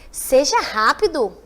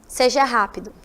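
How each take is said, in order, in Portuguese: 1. É dito com entonação interrogativa. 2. É dito com entonação de afirmação simples. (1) "Se fosse com a interrogação" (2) "com final de pontuação, ponto final"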